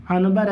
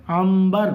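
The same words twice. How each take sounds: First: عنبر with a clear n before the b; as written. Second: عنبر as am-bar with a held m; nun read as mim. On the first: Teacher shows pupils the spelling, عنبر said with an n. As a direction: sound out the نون in عنبر as an-bar. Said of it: "لیکن لکھ". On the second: Teacher answers how it is read, عنبر said with an m. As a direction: turn the n of عنبر into a humming m. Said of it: "پڑھیں گے کیسے". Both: Shown as a demonstration.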